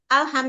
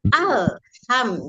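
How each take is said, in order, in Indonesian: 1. Bunyi L dipercepat dan dipotong pendek. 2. Bunyi L ditahan selama satu ketukan penuh. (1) "jangan al alham" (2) "Jadi alnya itu satu ketuk"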